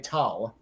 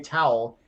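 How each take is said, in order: First: The word is said in a Pittsburgh accent. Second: The word is said in a standard accent. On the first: "you dry off with a towel" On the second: "You don't dry off with a towel"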